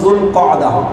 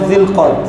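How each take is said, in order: First: It begins 'zul' with a longer 'qa'ada' ending. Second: It begins 'zil' with a short one-syllable 'qad'. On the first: The speaker calls it right. "মূল উচ্চারণ সঠিক হলো" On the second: The speaker calls it wrong. "এটা সঠিক উচ্চারণ নয়"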